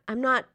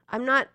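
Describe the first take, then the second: Both takes have the same delivery.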